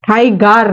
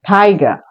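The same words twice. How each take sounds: First: "টাইগার" with the final r sounded; wrong take. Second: "টাইগার" with no final r, ending on a; correct take. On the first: Teacher shows the wrong "টাইগার" with r. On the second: Teacher gives the correct "টাইগার" without r. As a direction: drop the r, end "টাইগার" on the vowel. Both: Shown as a demonstration. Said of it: "টাইগার নয় কিন্তু".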